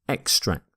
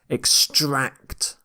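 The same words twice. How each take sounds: First: The stress is on the first syllable. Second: The stress is on the second syllable. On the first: It is used as a noun. "you tend to stress the first syllable" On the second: It is used as a verb. "You stress the second syllable here"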